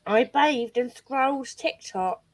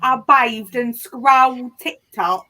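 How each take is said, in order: First: Slow, lightly put-on imitation of a friend's accent; imitating Smash's accent. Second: Put-on slow, louder copy of the friend's accent; imitating Smash's accent. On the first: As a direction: drag the words out in the friend's accent. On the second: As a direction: drag each word out in the friend's accent, a little louder. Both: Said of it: "That's not how Smash talks".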